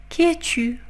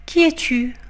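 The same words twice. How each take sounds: The two takes are said the same way.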